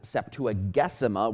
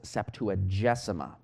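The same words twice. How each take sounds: First: The G is pronounced hard, like in 'go'. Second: The G is pronounced soft, like in 'gem'. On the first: This follows classical Latin pronunciation. The speaker calls it wrong. "with a hard G" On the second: This follows church Latin pronunciation. The speaker calls it right. "more properly pronounced with a soft G"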